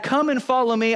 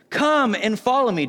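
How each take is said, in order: First: Higher, breezy retelling of an invitation; chatty paraphrased call; casual Jesus. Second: Raised, measured Bible-reading delivery; proclaimed line of scripture. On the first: Retold or imitated. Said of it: "Jesus comes by and he's like". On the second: A narrator's reading. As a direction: read it out as a solemn call. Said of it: "He says".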